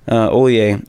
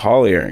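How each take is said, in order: First: The name is said the original Cajun way. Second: The name is said with a Texas twang. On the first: This is the family's original pronunciation. "It's a Cajun name" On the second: This is how people in Texas came to say it. "They say the Texas kind of twang to it"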